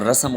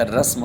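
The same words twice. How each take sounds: First: رسم as two syllables "ra-sam"; wrong pronunciation. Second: رسم as one syllable "rasm"; correct pronunciation. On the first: Teacher showing the error, two-syllable "rasam" for رسم. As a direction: add a vowel before m in رسم, "rasam". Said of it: "اور رسم غلط ہے". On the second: Teacher correcting the error, one-syllable "rasm" for رسم. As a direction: run s straight into m in رسم, "rasm". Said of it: "رسم ہوتا ہے لفظ". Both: Shown as a demonstration.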